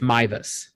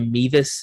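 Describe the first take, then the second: First: The first syllable sounds like 'my'. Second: The first syllable sounds like 'meh'. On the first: The speaker calls it right. "but it's it's Mivus" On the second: The speaker calls it wrong. "I want to say Mevis"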